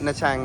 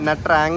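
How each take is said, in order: First: It is said with a 'ch' sound. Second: It is said with a 'tr' sound. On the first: This is how it is actually pronounced. "പക്ഷെ അത് പ്രൊനൗൺസ് ചെയ്യണത് നച്ചാങ് എന്നാണ്" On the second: This is how the spelling reads. "എഴുതണത് N H A T R A N G എന്നാണ്, നട്രാങ് എന്നാണ്"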